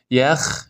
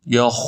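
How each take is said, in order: First: یخ with a light æ; fronted vowel in یخ; wrong thin خ. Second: یخ with a dark back a; full, heavy kh in یخ; correct heavy خ. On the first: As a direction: say یخ as "yækh". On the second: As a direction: say یخ as thick "yakh". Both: Shown as a demonstration. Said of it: "دومی درسته".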